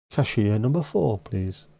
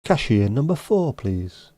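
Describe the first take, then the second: First: A flatter repeat of the announcer call, fading on please; bank desk announcer again. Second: Mock announcer call, rising then dropping on please; bank desk announcer. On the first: Pretend. Repeating the call to the queue, lighter mock announcer. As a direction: repeat the call more offhand. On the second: To an imaginary queue, a mock bank desk announcer call. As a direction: call the next customer like a tannoy. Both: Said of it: "a bank desk announcer".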